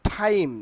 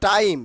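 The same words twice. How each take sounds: First: টাইম with a breathy puff on the T; aspirated T. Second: টাইম with a hard, unpuffed T; unaspirated T. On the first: Teacher showing the corrected word, aspirated T. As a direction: say টাইম as if spelt with ঠ. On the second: Teacher giving the word the old way, unaspirated T. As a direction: say টাইম starting on plain ট. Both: Shown as a demonstration. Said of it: "টাইমের উচ্চারণ হবে".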